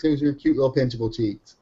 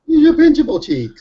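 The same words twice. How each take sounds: First: Said in the usual way. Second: Put-on high loud squealing baby talk; squealing baby talk aunt. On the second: Cooing about son's cheeks.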